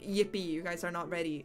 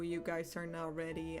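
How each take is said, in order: First: It sounds excited, like good news. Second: It sounds ominous, like bad news.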